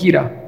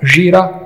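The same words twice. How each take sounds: First: It is said with the northern Pashto sound. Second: It is said with the southern Pashto sound.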